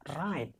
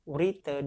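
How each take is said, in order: First: The word starts directly with the r sound. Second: A w-like sound is heard at the start. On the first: It is read the way it is really pronounced. "dibaca right" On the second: It is read letter by letter as written. "kenapa Urite dibaca right?"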